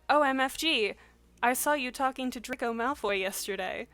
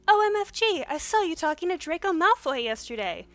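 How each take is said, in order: First: It is read in the speaker's normal voice. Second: It is read in a put-on high-pitched voice.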